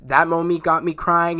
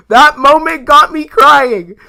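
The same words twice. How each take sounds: First: Said in the usual way. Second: High, loud and slow, overcome; emotional outburst. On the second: Real, not acted. Fan recalling a Guardians scene, loud and high. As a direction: stretch it out, nearly wailing.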